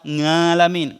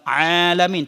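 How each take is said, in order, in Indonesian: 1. Kata ini dimulai dengan bunyi ng. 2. Kata ini dimulai dengan bunyi vokal biasa. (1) "tetap ngalamin" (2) "udah puluhan kali kita bilang alamin"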